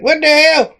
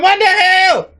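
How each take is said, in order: First: High-pitched startled exclamation; retold startled disbelief. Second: Very high, mock-alarmed outcry; retold escalating shock. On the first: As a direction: blurt it out in mock astonishment. Retold startled reaction to a creature. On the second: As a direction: push the astonishment way up high. Bigger reaction after it grew.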